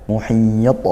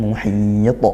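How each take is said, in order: No difference in how they are said.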